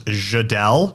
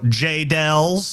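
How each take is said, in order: First: The name is said with a soft French-like sound. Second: The name is said with a Texan drawl. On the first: The speaker calls it right. "J pronounced like je t'aime in French" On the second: The speaker calls it wrong. "if you're from Texas, you'd go J-Dells"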